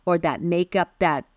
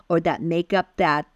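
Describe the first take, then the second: No difference in how they are said.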